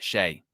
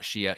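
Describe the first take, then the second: First: The name is said with one syllable. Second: The name is said with two syllables. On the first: The speaker calls it right. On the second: The speaker calls it wrong. "not Shia"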